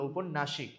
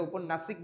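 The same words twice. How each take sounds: First: ঔপন্যাসিক ending "-nashik", with sh; correct pronunciation. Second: ঔপন্যাসিক ending "-nasik", with s; wrong pronunciation. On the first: Teacher shows what we say, ঔপন্যাসিক with sh. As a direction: say sh near the end of ঔপন্যাসিক. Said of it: "আমরা কি বলি?". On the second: Teacher shows what we don't say, ঔপন্যাসিক with s. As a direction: say a hissed s near the end of ঔপন্যাসিক. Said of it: "ঔপন্যাসিক বলি না". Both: Shown as a demonstration.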